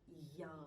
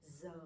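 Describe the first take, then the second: First: The sound is a y, Southern accent. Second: The sound is a z, Northern Hanoi accent.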